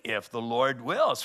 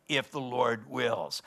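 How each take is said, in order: First: Said in the usual way. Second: Slow, with weight on "if"; stress on if. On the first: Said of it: "He said". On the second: Shown as a demonstration. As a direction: lean on "if" in "if the Lord wills". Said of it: "Notice his language".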